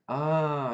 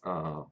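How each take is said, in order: First: The 'ah' sounds like sudden understanding. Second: The 'ah' sounds let down and disappointed. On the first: The speaker now understands something. "like a naruhodo" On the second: The speaker is let down by something.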